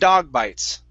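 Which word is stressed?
dog. The stress falls on the word dog. The speaker calls it right. "here we want to stress dog"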